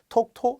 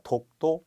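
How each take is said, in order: First: The first consonant is strongly aspirated. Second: The first consonant is plain and unaspirated. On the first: The speaker calls it wrong. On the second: The speaker calls it right.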